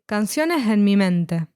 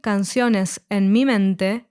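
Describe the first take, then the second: First: A soft h replaces the s, linking both words. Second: The final s of canciones is clearly pronounced. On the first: "the S sound is replaced by a soft H that links both words" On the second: "instead of saying"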